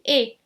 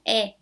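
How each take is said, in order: First: The vowel is pronounced closed. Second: The vowel is pronounced open. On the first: The speaker calls it right. "a minha pronúncia é fechada" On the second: The speaker calls it wrong. "Eu não pronuncio E"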